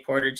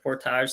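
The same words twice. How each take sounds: First: It is pronounced the American way. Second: It is pronounced the Canadian way. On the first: The speaker uses the pronunciation from his own country. "I say portage instead of portage since I'm south of the border" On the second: This is how people north of the border say it. "instead of portage"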